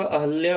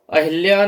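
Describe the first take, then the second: First: अहल्या with a short अ after ह; the correct अहल्या, with -həl-; correct form. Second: अहिल्या with an इ after ह; the incorrect अहिल्या, with -hil-; wrong form. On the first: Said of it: "अहल्या होता है". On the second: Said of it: "अहिल्या नहीं होता". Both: Shown as a demonstration.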